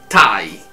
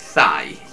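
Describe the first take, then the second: First: The word begins with a plain t sound. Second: The word begins with a th sound. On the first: The speaker calls it right. "è Thai" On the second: The speaker calls it wrong. "non è Thai"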